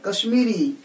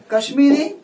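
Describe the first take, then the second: First: Said in the usual way. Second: Kashmiri said higher and louder with a rising tune; emphasized word. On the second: Shown as a demonstration. Teacher highlights the adjective for the class, Kashmiri raised and stressed. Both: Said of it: "Kashmiri शाल".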